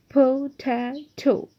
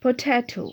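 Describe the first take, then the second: First: "potato" very slow, in three separate beats; syllable by syllable. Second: Said in the usual way. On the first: Shown as a demonstration. Teacher letting pupils see three syllables, "potato" divided slowly into syllables. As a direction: split "potato" into po, ta, to, drawing each out. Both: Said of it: "three syllables are in this".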